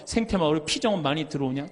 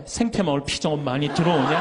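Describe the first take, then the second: First: Lightly voiced friend asking about retreats; casual, matter-of-fact call; friend's phone question. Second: Same question again with a laugh; mock-weary rerun of the call; amused repeat. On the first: Priest imitates his classmate's phone question, lightly voiced. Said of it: "그럼 또 다음에 전화해갖고". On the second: Priest laughs, repeating the classmate's monthly question. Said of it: "다음 달에 또 전화해".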